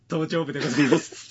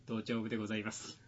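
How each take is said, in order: First: Quoting while laughing; words breaking into laughter; laughing through the quote. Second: Quiet formal funeral attendant voice; imitating a hushed, ceremonious attendant; hushed solemn attendant. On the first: Retold or imitated. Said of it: "つって。". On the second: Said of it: "頭頂部でございますっていう".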